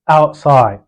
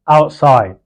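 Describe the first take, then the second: Both takes have the same delivery.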